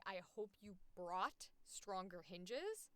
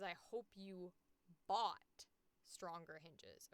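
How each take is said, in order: First: Slow line leaning on brought; stress on brought. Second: Bought set apart after a pause; pause, then land slowly on bought; stress on bought. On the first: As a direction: dwell on brought, rising at the end. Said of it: "I wanna say brought so badly". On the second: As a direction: bought isolated and drawn out, falling end. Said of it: "It says". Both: Shown as a demonstration.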